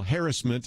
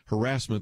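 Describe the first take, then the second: First: The stress is on the first syllable. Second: The stress is on the second syllable. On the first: This is the British way of saying it. "is really the way the British say it" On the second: This is the American way of saying it. "the way Americans say it"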